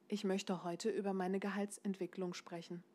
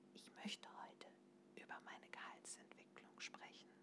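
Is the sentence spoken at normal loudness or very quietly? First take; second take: normal; quiet. First: It is spoken at a normal, comfortable loudness. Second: It is spoken very softly, almost in a whisper. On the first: "wie du ihn normalerweise sagen würdest" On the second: "Ganz klein, ganz leise"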